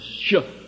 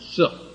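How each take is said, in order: First: The syllable begins with a sh sound. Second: The syllable begins with an s sound. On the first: This is how the word was written. "they didn't pronounce it as Shuh" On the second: This is how the word was actually pronounced. "they pronounced it Suh"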